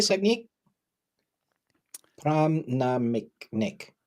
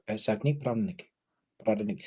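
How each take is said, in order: First: Name said with an Indian accent. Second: Said in the usual way. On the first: Shown as a demonstration. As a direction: pronounce it the Indian way. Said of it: "I'm trying to do an Indian accent". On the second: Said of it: "I should just try and say the name".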